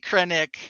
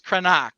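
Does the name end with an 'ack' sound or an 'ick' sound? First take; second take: ick; ack. First: The last syllable ends with an 'ick' sound. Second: The last syllable ends with an 'ack' sound. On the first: This is how the name is said in the outer regions. "maybe Krennic in the outer rim" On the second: This is the original pronunciation from the home world. "he's Krenak uh, on Coruscant"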